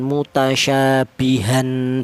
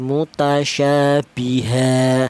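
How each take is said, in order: First: The word ends with an n sound. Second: The word ends with a long a vowel. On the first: The speaker calls it wrong. "Jadi cara bacanya bukan mutasyabihan" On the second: The speaker calls it right. "tapi mutasyabiha. Tanwin fathahnya diganti fathah biasa"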